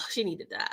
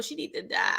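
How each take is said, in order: First: Said in the usual way. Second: Hushed, breathy whisper of a wish. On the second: Shown as a demonstration. Recapping a TV drama, whispering the wish that she dies. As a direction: whisper it like a secret.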